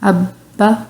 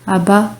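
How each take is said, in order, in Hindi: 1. 'b' ध्वनि रोकी जाती है और दोहरी होती है। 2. 'b' ध्वनि छोटी और एकल होती है। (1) "पहले अब बा, ऐसे फिर मुंह खोलना है आपने फ़ौरन" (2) "अब हम इसको ऐसे नहीं पढ़ रहे"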